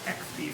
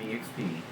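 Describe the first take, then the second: First: It is spoken as two letters, without the E. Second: It is spoken as three letters, starting with E.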